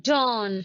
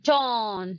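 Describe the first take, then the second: No difference in how they are said.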